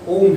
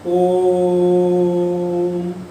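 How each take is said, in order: First: The vowel is held for a normal length. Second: The vowel is greatly drawn out.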